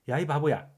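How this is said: It is said in a light, scolding tone. The speaker is lightly telling someone off. "가볍게 야단치려는 의도였죠"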